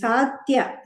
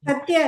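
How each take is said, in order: First: The first vowel is long. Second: The first vowel is short. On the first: The speaker calls it right. "ಸಾ ದೀರ್ಘ ಇದೆ" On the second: The speaker calls it wrong. "ಸತ್ಯ ಅಲ್ಲ"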